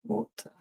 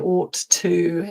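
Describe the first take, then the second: First: The words run together into one reduced form. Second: Both words are said fully and separately. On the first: The speaker calls it right. "when spoken quickly ... more like oughta" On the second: The speaker calls it wrong. "you wouldn't say ought to"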